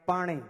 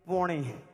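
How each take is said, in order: First: It is said with an open 'a', Kutch-Kathiawad style. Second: It is said with an 'o', the speaker's local style.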